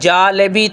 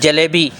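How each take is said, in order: First: The first vowel is drawn out long. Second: The first vowel is short and quick. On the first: The speaker calls it wrong. "अगर हम कहेंगे जालेबी तो ये गलत हो जाएगा" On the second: The speaker calls it right. "जैसे लफ्ज़ है ना जलेबी"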